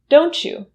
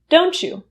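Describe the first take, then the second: First: The t and y merge into a ch sound. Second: The same.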